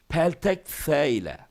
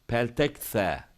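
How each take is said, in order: First: Said in the usual way. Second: "Peltek S" with a lisped S; slushy lisp. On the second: Shown as a demonstration.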